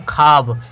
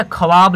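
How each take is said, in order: First: ख्वाब said as खाब, without the w; spoken form. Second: ख्वाब read out as written, kh-wa-b; spelling form. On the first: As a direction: say खाब, drop the वाव. (उच्चारण खाब) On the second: (लिखावट वाला ख्वाब) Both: Shown as a demonstration. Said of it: "लेकिन पढ़ते हैं इसको क्या".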